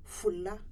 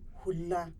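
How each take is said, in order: First: The word starts with an f sound. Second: The word starts with an hw sound. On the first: This is the Nigeria form. "in Nigeria, they will say Fula" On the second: This is the Niger form. "In Hausa of Niger"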